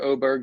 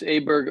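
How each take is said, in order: First: The name begins with an 'o' vowel. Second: The name begins with an 'a' vowel. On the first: It follows the Scandinavian way of saying the name. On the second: It is the usual American way of saying the name.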